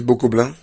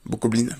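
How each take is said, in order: First: "bokoblins" said the French way, ending in a nasal "-blin" like "bokoblain"; "bokoblins" with a nasal ending, said in passing, then corrected; slip of the tongue. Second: "bokoblins" with a clear English "-lin" ending, the N sounded; "bokoblins" corrected to an English "-lin" ending; corrected pronunciation. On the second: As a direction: fix "bokoblins" by saying "blin" with an English I and a sounded N. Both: Real, not acted.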